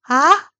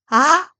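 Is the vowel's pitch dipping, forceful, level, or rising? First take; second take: rising; rising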